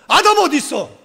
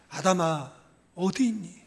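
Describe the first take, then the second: First: The voice sounds harsh and angry. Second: The voice sounds tearful and pleading. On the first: The caller is furious and wants to punish. The speaker calls it wrong. "이 죽여버릴 놈 어디 있어?" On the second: The caller grieves and longs to forgive. The speaker calls it right. "울면서"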